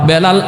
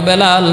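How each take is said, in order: The two takes are said the same way.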